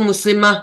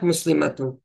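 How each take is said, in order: First: The word ends in a short -ah sound. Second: The word ends in a full -atun ending. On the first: The speaker is stopping at the word. "जब हम रुकते हैं तो मुस्लिमा भी हम पढ़ सकते हैं हा की आवाज के साथ" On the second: The speaker reads the word in full. "हम अगर पूरा भी पढ़ ले"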